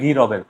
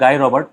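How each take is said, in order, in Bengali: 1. নামটি ফরাসি ধ্বনিতে বলা হয়। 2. নামটি ইংরেজি ধ্বনিতে বলা হয়। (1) "ফ্রেঞ্চে বলে" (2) "ইংলিশে প্রোনাউন্স করে"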